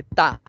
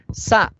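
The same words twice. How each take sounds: First: "ta" lenta, con T en vez de S; error de oclusivización. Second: "Sa" aislada y alargada, con S clara; da la consigna "Sa" lentamente; consigna modelo. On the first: Retold or imitated. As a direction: imita al niño que cambia "sa" por "ta". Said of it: "y te dice ta". ("ta" aislada, con oclusiva inicial) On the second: Shown as a demonstration. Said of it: "le das la consigna". ("Sa" pausada, con fricativa inicial)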